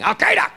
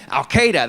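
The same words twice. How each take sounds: First: Very high barked word; dog barking. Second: Said in the usual way. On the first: Acted. Comic likening the name to a dog, high barking. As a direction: bark the name like a frantic dog. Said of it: "It's like a dog barking". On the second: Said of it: "got some meat to it".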